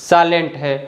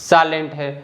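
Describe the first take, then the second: The two takes are said the same way.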